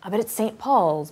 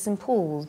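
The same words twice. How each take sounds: First: Said in the usual way. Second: Put-on English accent. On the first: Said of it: "but she doesn't say Saint Paul's". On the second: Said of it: "because she's from England".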